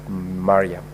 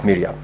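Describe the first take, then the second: First: The name begins with the sound 'Mar'. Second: The name begins with the sound 'Mir'. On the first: The speaker calls it right. "the name is pronounced as" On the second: The speaker calls it wrong. "you made reference to the distinguished Senator Omar Sheikh Mariam as"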